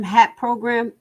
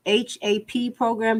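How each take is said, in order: First: Hap said as one word, like "hap". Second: H A P spelled letter by letter. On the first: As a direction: read hap as a single word. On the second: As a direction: say H A P as separate letters. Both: Shown as a demonstration.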